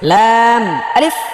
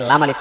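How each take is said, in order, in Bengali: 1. নাম দুটো আলাদা দুটি শব্দের মতো বলা হয়। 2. নাম দুটো কোনো বিরতি ছাড়াই একসাথে বলা হয়। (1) "এটা দুইটা হরফ আছে।" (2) "এটা ম্যাক্সিমাম মানুষ এটাকে লাম আলিফ বলে।"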